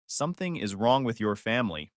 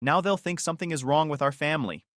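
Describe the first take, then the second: First: Dry, understated comeback; inner retort. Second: Mildly worried, rising in concern; fretting. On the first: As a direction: answer it privately, matter-of-fact. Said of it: "I thought when I heard it". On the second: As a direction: fret lightly about what others will think. Mother frets over neighbors finding out. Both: A narrator's reading.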